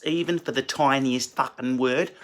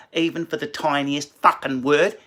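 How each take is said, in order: First: Put-on Australian accent. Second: Put-on Australian accent stretched wider on "word"; bigger Australian accent. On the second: Comedian mocking Australians, broader Australian accent. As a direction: push the Australian vowels further, rising on "word". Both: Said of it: "speaking like that are Australians".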